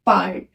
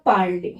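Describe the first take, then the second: First: "पार्ट" as one syllable, parl; silent final E. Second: "पार्ले" in two syllables, par-lay; accented final É. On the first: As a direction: end "पार्ट" on the consonant, no ay. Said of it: "तो उसका pronunciation होगा". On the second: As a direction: end "पार्ले" on a clear ay. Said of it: "उसका pronunciation हो जाएगा". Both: Shown as a demonstration.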